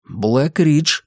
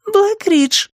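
First: Said in the usual way. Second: Put-on very high-pitched girl saying БЛЭК-РИДЖ; high girlish БЛЭК-РИДЖ; girl's echo. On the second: A narrator's reading. Nori echoes Joe's answer.

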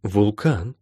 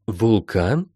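First: "Вулкан" said back with a falling end; matter-of-fact echo of "Вулкан", falling tune; echoed word. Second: Timid little echo of "Вулкан"; faltering murmur. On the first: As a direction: repeat "Вулкан" evenly, letting the end drop. Healer echoes the startled question. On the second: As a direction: babble it faintly as a question. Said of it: "пролепетала Молли". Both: A narrator's reading.

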